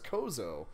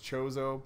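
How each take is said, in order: First: The word begins with a k sound. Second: The word begins with a ch sound. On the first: This is a personal reading that sounds cooler. "I always read it as Kozo. And it kind of sounds cooler" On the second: This is the official pronunciation. "the official pronunciation is Chozo"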